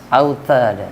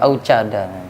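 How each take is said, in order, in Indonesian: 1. Konsonan tengahnya adalah t yang jelas. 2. Konsonan tengahnya terdengar seperti ch.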